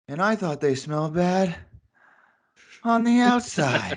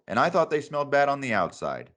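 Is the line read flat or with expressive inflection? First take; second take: expressive; flat. First: It is read with expressive, dramatic inflection. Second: It is read flat, with no inflection.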